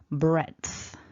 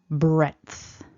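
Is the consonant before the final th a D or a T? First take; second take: D; D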